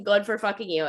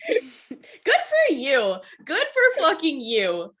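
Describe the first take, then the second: First: Said in the usual way. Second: Long, dragged-out sarcastic congrats; mock drawled cheer. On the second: Real, not acted. To a co-host who admits not knowing, drawled mock cheer. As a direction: stretch each word like a mock toast.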